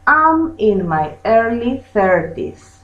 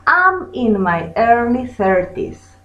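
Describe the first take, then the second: No difference in how they are said.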